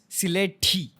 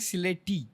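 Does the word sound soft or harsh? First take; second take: harsh; soft. First: The word is said in a harsh, angry way. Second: The word is said in a light, soft way. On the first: The speaker calls it right. "So you need the angry voice for that" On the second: The speaker calls it wrong. "it's like you're pronouncing like a, a little bit girly way"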